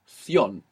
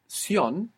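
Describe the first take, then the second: First: The syllable begins with a th sound. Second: The syllable begins with an s sound. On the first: "in most of Spain, it's pronounced thion" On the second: "pronounced sion, like an S, in most of the Spanish-speaking world"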